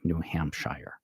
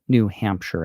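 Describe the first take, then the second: First: The ending 'shire' is said in full. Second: The ending 'shire' is reduced and unstressed. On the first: The speaker calls it wrong. "and not" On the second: The speaker calls it right. "we say"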